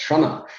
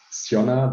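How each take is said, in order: First: Shona said with an opening SH, no Y glide; Irish name pronunciation. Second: Sionna said with S plus a Y glide, SYON-na; mistaken pronunciation. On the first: Retold or imitated. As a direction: say Shona as SHO-na. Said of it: "Irish people in the company who immediately said". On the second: Shown as a demonstration. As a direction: start Sionna with "sy", not "sh". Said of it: "thought at the beginning it was".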